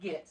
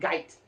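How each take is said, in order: First: The vowel sounds like 'eh'. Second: The vowel sounds like 'eye'. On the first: The speaker calls it wrong. "not get" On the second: The speaker calls it right. "I think they said Gite"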